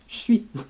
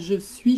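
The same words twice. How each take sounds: First: The words are squeezed together, dropping some sounds. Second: Every sound of both words is pronounced clearly. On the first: "je dis je suis" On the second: "moi je dis pas je suis"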